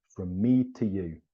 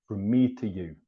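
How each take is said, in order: Both takes have the same delivery.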